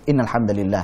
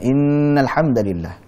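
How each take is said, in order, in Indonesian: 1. Bunyi sengaunya pendek, seperti saat bicara santai. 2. Bunyi sengaunya ditahan panjang. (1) "Seperti orang ngobrol biasa"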